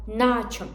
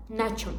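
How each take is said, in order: First: "naçim" with a long first A. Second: "naçim" with a short first A. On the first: Teacher correcting the mistake, long first syllable in "naçim". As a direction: hold the "na" of "naçim". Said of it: "Na is longer". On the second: Teacher showing the common mistake, short first syllable in "naçim". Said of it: "Not naçim". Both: Shown as a demonstration.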